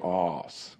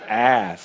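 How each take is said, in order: First: The word is said with a British accent. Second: The word is said with an American accent.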